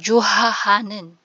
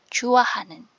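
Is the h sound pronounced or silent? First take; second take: pronounced; silent. First: The h sound is clearly pronounced. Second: The h sound is dropped and not heard. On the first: The speaker calls it wrong. "hindi siya 좋아하는" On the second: The speaker calls it right. "hindi mo na kailangang ipagkadiinan yung h na tunog"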